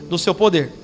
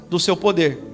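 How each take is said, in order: The two takes are said the same way.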